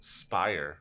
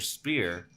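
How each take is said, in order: First: The name rhymes with the word fire. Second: The name rhymes with the word ear. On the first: "though it's pronounced Spire" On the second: "my entire childhood I pronounced it as spear"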